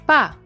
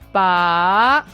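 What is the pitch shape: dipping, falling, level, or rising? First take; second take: falling; rising. First: The pitch falls from high to low. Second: The pitch rises from low to high. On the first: It means dead. "The fourth tone, high to the bottom" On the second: It means to pull out. "The second tone low to high"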